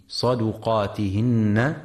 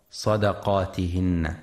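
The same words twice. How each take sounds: First: صدقاتهن with dal rounded, saduqatihinna; correct pronunciation. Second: صدقاتهن with dal open, sadaqatihinna; wrong pronunciation. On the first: Teacher shows listeners the damma on the dal. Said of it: "لضم الدال وعدم فتحها". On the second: Teacher warns listeners against fatha on the dal. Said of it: "فلا يقرأ". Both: Shown as a demonstration.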